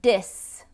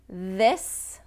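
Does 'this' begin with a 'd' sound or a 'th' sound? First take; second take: d; th. First: It begins with a 'd' sound. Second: It begins with a 'th' sound. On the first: The speaker calls it wrong. "d sound, where it's behind the teeth" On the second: The speaker calls it right. "the T H sound in English, which is th or this"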